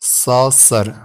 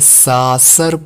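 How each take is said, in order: First: The first vowel is slightly rounded. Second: The first vowel is open and unrounded. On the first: The speaker calls it right. "थोड़ा सा गोल करते" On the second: The speaker calls it wrong. "इस तरह भी नहीं थोड़ा सा गोल करते"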